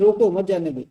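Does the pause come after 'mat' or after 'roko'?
after roko. The pause comes after the word 'roko'. Stop him; do not let him go. "तो अर्थात उसको रोक लो, जाने मत दो"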